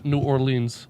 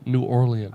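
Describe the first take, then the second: First: Orleans is said with two syllables. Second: Orleans is said with three syllables.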